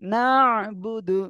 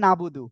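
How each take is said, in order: First: The middle has a throat-pressed sound. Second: The middle is plain, without throat pressing. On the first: The speaker calls it right. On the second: The speaker calls it wrong.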